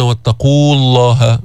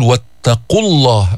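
First: واتقوا الله with a long oo before الله; madd kept. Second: واتقوا الله with a short u running into الله; madd dropped. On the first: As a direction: stretch the و ending واتقوا. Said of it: "ليش هون ما قلنا واتقوا الله". (واتقوا الله بمد الواو) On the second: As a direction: clip the oo of واتقوا into the doubled ل. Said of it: "فبينحذف المد هون". (واتقوا الله بحذف مد الواو) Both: Shown as a demonstration.

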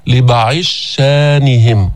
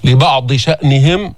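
First: لبعض شانهم slowly, the ض merged into a doubled ش, hamza eased; reading of al-Sūsī. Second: لبعض شأنهم with the hamza and ض sounded; standard reading. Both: Shown as a demonstration. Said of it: "بيقرأها".

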